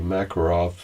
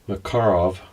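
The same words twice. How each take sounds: First: The stress is not on the second syllable. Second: The stress is on the second syllable. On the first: This is how people in the United States say it. "as we in the United States say" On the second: This is how the speaker was taught to say it. "I was always taught to pronounce it with accent on the second syllable"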